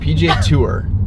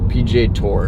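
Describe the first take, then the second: First: Tour is said in his usual, unusual way. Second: Tour is said to sound like tore. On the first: "That's how I would say it" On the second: "it's like T O R"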